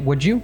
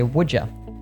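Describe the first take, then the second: First: The word you is said in its full form. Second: The word you is reduced to ya. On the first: "a full you" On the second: "reduce it to a yeah"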